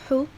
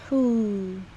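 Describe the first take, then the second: First: The vowel is short. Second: The vowel is held long.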